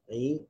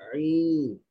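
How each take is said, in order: First: The sound is produced easily and relaxed. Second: The sound is forced out with strain. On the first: This is an acceptable, natural reading. The speaker calls it right. "sebutan yang tenang, relax je orang sebut" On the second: The reader overdoes the pronunciation. The speaker calls it wrong. "dia pun paksa diri dia"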